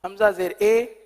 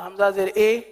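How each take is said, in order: The two takes are said the same way.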